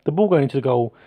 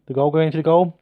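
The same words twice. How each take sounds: First: "ball" stressed as the fix; self-correction. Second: "goal" said instead of ball, slightly raised; verbal slip. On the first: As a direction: put the weight on "ball". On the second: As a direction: trip over the word "goal". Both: Real, not acted.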